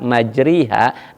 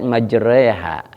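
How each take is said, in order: First: The middle vowel is a clear i sound. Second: The middle vowel leans toward an e sound.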